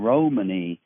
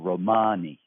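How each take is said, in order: First: The stress is on the first syllable. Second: The stress is on the middle syllable. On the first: It is linked with the word roaming. "The pronunciation Romani is common, I think, because of an association with roaming around" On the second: This is how one regional dialect says it. "the Hungarian Romani dialect of the language puts the stress in the middle"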